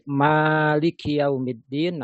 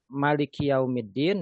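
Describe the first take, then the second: First: The vowel after the first m is long. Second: The vowel after the first m is short. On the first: The one who owns or rules it. "Jika mimnya ada alif" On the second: The king. "Jika dibaca pendek"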